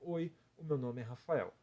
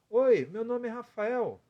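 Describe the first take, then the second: First: The voice comes plainly from the mouth. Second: The voice is higher, placed in the head.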